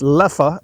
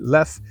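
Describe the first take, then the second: First: The name is said the brewery's own way. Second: The name is said the French-speaking way. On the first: This is the official pronunciation. "It is pronounced Leffe according to the brewery" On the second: This is how French speakers say it. "So you may hear it Lef"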